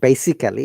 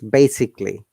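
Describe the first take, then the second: First: The vowel before the final 'lly' is pronounced. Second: The vowel before the final 'lly' is dropped. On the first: The speaker calls it wrong. "So it is not basically" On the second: The speaker calls it right. "it's basically. we don't have to pronounce A at all"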